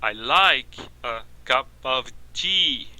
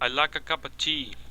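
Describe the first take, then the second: First: Each word is pronounced fully and separately. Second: The small words are reduced to schwa. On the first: The speaker calls it wrong. "Mas eles não falam assim, soletrando cada palavra na frase" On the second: The speaker calls it right. "Reduzindo a schwa"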